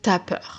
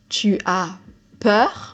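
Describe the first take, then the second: First: Tu loses its vowel and joins as. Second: Tu is said in full before as.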